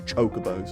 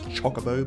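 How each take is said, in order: First: The first syllable does not sound like chocolate. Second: The first syllable sounds like 'choc' in chocolate. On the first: "but I prefer to say Chocobo" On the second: "their name is derived from chocolate, so maybe it's Chocobo"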